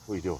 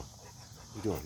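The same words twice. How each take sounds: First: Said in the usual way. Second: Hushed and slow, cooing at the dog; soft slow dog talk. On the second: Real, not acted. Man softly coos to his dog, slow and hushed. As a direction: ease off and coo it gently.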